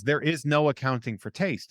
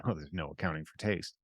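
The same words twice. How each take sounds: First: Sincere, evenly voiced reassurance; sincere and non-judgmental; earnest. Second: Low, soft dismissive aside; imitating an offhand brush-off. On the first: Real, not acted. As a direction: say it earnestly, meaning every word. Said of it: "I mean it so earnestly". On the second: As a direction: toss it off dismissively, dropped right down. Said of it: "people very dismissively will say".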